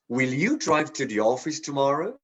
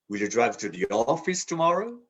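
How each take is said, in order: First: The stress falls on the word you. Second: The stress falls on the word office. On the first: The question is about this person specifically. "emphasize the you" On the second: The question is whether the destination is the office. "To the office?"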